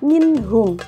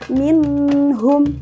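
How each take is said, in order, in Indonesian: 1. Bunyi n dibaca jelas dan singkat. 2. Bunyi n didengungkan dan ditahan lebih lama. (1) "dibacanya juga harus jelas" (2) "tidak boleh digunakan atau ditahan... itu salah"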